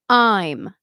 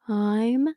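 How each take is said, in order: First: The word starts cleanly with a glottal catch. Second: The word starts softly with a breathy onset. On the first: The speaker calls it right. "I'm with a clean, what we call a glottal onset" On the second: The speaker calls it wrong. "instead of saying"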